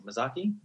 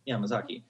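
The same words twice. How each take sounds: First: Mizaki said questioningly, rising and softer; unsure name. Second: Mizaki confirmed softly with a falling tune; settling the name. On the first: Unsure of the friend's surname, Mizaki asked with a soft rise. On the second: Settling on the friend's surname, Mizaki said with a soft fall. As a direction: land Mizaki firmly, falling. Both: Real, not acted. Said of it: "I don't know how to spell".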